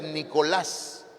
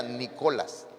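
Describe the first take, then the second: First: "Nicolás" stressed on the last syllable, -LÁS; stress on final A. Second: "Nicolás" said as NÍ-colas, first syllable stressed; stress moved to NI. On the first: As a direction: land the accent on the á of "Nicolás". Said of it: "Lleva acento en la A". ("Nicolás" con acento en la última sílaba) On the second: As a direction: misplace the accent, hitting the "Ni" of "Nicolás". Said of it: "Lleva acento en la A, porque si no". ("Nicolás" dicho como esdrújula, Nícolas) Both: Shown as a demonstration.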